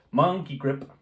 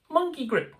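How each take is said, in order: First: Said in the usual way. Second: High monkey voice, lightly done; mock ape voice; monkey impersonation. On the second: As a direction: say it like a playful monkey. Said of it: "That's my monkey impersonation".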